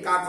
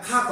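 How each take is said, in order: First: The first consonant has no puff of air. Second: The first consonant has a puff of air. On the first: The speaker calls it wrong. "কাক হবে না" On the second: The speaker calls it right. "খাক হবে গ যখন বাসি মানে প্রথমে থাকে তখন তার উচ্চারণ হবে যে খ"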